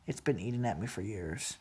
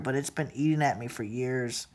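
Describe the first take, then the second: First: Far softer and lower, almost gone; the repeat sinks to a hush; near-whispered hurt. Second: Much softer, low and heavy; quiet hurt. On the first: Repeating to a relative the pain that festered, near whisper. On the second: Telling a relative what festered for years, hushed and hurt. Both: Real, not acted.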